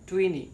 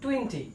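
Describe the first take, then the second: First: The t sound is dropped entirely. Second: The t sound is clearly pronounced. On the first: The speaker calls it right. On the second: The speaker calls it wrong.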